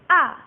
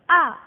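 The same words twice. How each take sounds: The two takes are said the same way.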